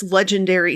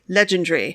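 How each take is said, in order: First: Said in the usual way. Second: "legendary" said the British way, as "LEJ-en-dree"; George Martin's pronunciation. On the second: Retold or imitated. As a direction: squeeze "legendary" down, dropping the A of "-ary". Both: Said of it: "or as Sir George Martin would say".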